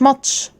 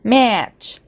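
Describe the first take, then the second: First: The a vowel is short and clipped. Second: The a vowel is drawn out longer. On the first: The speaker calls it wrong. "مش ماتش" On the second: The speaker calls it right. "نمد حرف ال A"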